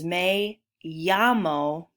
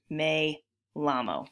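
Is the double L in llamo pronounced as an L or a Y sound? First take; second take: Y sound; L sound. First: The double L sounds like an English Y. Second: The double L sounds like an English L. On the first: The speaker calls it right. "They make a Y sound" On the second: The speaker calls it wrong. "two L's in Spanish do not make an L sound"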